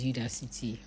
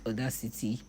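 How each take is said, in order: First: The name begins with a 'yoo' sound. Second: The name begins with an 'aw' sound. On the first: The speaker calls it right. "but it's Udacity" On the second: The speaker calls it wrong. "it's me that likes calling it Audacity"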